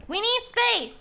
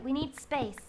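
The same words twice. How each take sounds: First: High, loud cry; mock demanding shout. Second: Said in the usual way. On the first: Streamer digging out room for the build, shouting. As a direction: call it out insistently, pitch leaping. Same words repeated as shout.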